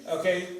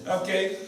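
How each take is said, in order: No difference in how they are said.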